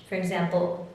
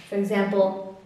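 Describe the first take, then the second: Both takes have the same delivery.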